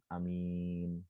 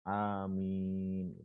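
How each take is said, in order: First: The word is said with a short vowel. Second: The word is said loudly with a long vowel. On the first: The speaker calls it wrong. "amin itu kan hanya pendek" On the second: The speaker calls it right. "dengan suara yang jahar dengan panjang"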